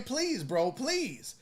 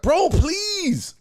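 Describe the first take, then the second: First: Soft, calm "please, bro". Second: High, whiny mock plea; pleading "bro please". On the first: Shown as a demonstration. Teaching self-defense, demos a soft calm plea with hands out. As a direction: hold him off gently. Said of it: "all you gotta do is just be like". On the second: Mimics the scared man pleading with his attacker, mock whine. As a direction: beg like a scared guy backing off. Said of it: "listening to him start".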